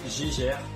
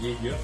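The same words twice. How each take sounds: First: The name is said with French pronunciation. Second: The name is said with English pronunciation. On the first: "En V F, c'est Geiger" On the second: "En anglais, ça se prononce Geiger"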